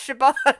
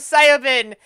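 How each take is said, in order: First: The name begins with a 'sh' sound. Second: The name begins with a 'see' sound. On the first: The speaker calls it right. "I know it's pronounced Shaban" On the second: The speaker calls it wrong. "look at it when I'm reading it in my head and go Siobhan"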